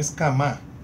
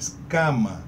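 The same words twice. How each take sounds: First: The stress is on the last syllable. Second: The stress is on the first syllable. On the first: The speaker calls it wrong. "Não é escama" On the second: The speaker calls it right. "A penúltima sílaba ela é tonificada"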